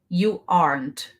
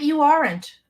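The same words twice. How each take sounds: First: Aren't is one syllable with no extra vowel. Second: Aren't has an extra vowel sound added. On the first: The speaker calls it right. "Repeat after me" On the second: The speaker calls it wrong. "Não é you aren't"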